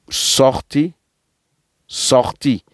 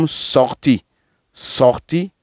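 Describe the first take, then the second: Both takes have the same delivery.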